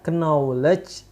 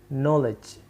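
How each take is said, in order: First: The K at the start is pronounced. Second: The K at the start is silent. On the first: The speaker calls it wrong. "Bukan dibaca knowledge" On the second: The speaker calls it right. "K-nya hilang"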